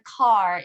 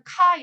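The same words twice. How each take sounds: First: It is said with English pronunciation. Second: It is said with Korean pronunciation. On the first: "영어로는 car 이런 식으로" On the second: "car도 한국어로는 car"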